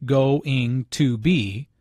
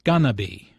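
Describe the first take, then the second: First: "going to be" slow, every syllable separate; four syllables. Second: "gonna be", going to merged into two syllables; reduced pronunciation. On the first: Teacher counting four syllables, "going to be" pronounced in full. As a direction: spell out "going to be" fully, slowly. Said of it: "Instead of four syllables". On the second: Teacher showing three syllables, reduced "gonna be". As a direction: run "going to" together as "gonna be". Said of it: "pronounced like gonna be". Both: Shown as a demonstration.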